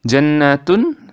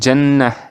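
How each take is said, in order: First: The word ends with a full 'tun' syllable. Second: The word ends with a silent-vowel 'h' sound. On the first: The reading continues without stopping. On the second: The reader stops at this word.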